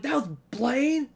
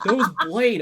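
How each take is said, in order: First: High, slow disbelieving question; surprised. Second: Loud, high excited call. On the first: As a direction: react in stunned disbelief. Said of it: "I was like". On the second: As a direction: announce it with excitement. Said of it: "everyone was like". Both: Retold or imitated.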